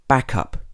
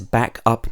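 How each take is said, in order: First: The stress is on the first part, back. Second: The stress is on the second part, up. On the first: It is used as a noun. "usually when it's a noun, or in this case a noun phrase, the first syllable will be stressed" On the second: It is used as a verb. "when it's a verb, the last part or the second part will be stressed"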